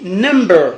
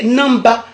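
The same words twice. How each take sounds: First: "number" as nem-ber, last syllable drawn out; English pronunciation. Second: "number" as nam-ba; Godié pronunciation. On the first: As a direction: end "number" on a long er. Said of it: "qu'en anglais, on dit". (« number » à l'anglaise, finale en er) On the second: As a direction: end "number" on an open a. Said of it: "on dit en gaudier". (« number » à la godié, prononcé nam-ba) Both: Shown as a demonstration.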